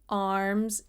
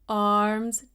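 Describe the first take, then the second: First: The vowel sounds lower and darker. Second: The vowel sounds higher and brighter. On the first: This is how many people say it today. "it's sort of lower" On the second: This is how singers of that period said it. "there's this height and this elegance in their pronunciation"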